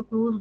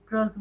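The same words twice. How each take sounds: First: क्रूज with a long oo and final z; क्रूज as "krooz", long vowel; students' pronunciation. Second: क्रस with a short vowel, rhyming with "bus"; क्रस with no long oo; teachers' pronunciation. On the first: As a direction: say क्रूज like English "cruise". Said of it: "कई बच्चे इसको क्रूज बोलते हैं". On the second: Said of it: "कई teacher क्रस बोलते हैं". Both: Shown as a demonstration.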